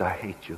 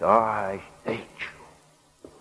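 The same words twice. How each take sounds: First: Low, soft hiss; hissed hatred. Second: Slow, drawn-out hiss through clenched teeth; hissed hatred. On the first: Slave woman still hating the man who freed her, low quiet hiss. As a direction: hiss it under your breath. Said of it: "She still hissed". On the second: Slave woman to her buyer after spitting in his face, slow hateful hiss. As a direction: hiss it very slowly, each word stretched. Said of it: "hissed through her clenched teeth". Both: A narrator's reading.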